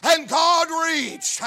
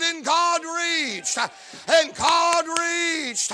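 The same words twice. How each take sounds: First: Emphatic. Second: Each word drawn out, And God reached; preacher's slow drawn-out And God reached; slow emphatic repeat. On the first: Real, not acted. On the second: Shown as a demonstration. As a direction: stretch And God reached slowly, weight on God. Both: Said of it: "I said".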